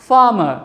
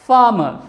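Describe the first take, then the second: No difference in how they are said.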